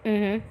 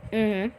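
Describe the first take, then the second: No difference in how they are said.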